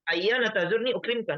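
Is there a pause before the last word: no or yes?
no. It runs straight through without any pause. The speaker calls it wrong. "Jadi tidak dibaca satu kali. ... enggak"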